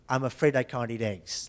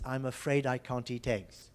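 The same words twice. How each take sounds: First: The T sounds in can't and eat are tapped. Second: Both T sounds are crisp, none tapped. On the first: "this T here might be tapped as well" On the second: "I said tegs, which is quite a B B C pronunciation"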